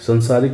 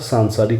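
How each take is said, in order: First: The first vowel is short. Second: The first vowel is long. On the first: The speaker calls it wrong. "संसारिक नहीं होता" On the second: The speaker calls it right. "सांसारिक होता है"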